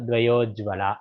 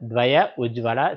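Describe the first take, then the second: First: The two words merge into one with an o sound. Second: The two words are said separately, unmerged.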